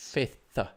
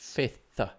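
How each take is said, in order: First: The th sound is said twice. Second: The same.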